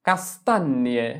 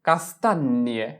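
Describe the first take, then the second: No difference in how they are said.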